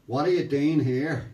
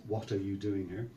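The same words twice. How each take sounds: First: Loud, slow Northern Irish demand; thick Northern Irish accent. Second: Said in the usual way. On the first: Retold or imitated. Policeman at the car window, thick Northern Irish accent. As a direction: bark it in broad Northern Irish. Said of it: "he says in his thick Northern Ireland accent".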